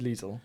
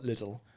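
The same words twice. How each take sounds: First: Lidl is said with a German pronunciation. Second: Lidl is said with an English pronunciation. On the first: The speaker calls it right. "it's German" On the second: The speaker calls it wrong. "not Lidl"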